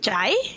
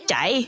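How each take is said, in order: First: The tone moves noticeably in pitch. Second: The tone stays fairly even in pitch. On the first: It means burning. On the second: It means running. "that one was like a more even tone"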